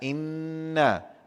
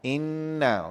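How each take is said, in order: First: The nasal n sound is cut short. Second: The nasal n sound is held for two beats. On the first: The speaker calls it wrong. "tak nak inna" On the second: The speaker calls it right. "dengung dua harakat"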